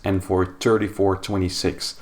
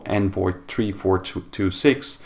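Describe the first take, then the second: First: The numbers are combined into larger grouped numbers. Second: The numbers are read one digit at a time. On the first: This is how it is said in the US. "is pronounced as" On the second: This is how it is said in Europe. "as it would be pronounced in Europe"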